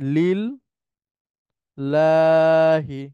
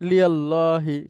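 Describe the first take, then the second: First: The parts merge into a doubled l sound. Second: The two parts are joined with a y-glide. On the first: The speaker calls it right. "এটা হয় লিল লাহি" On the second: The speaker calls it wrong. "কিন্তু লিয়াল্লাহিটাও উচ্চারণ হয় না"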